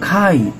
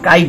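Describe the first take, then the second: First: The first k sound has a puff of air. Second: The first k sound has no puff of air. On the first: The speaker calls it right. "আমরা বলবো খাইট" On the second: The speaker calls it wrong. "আমরা কাইট বলবো না"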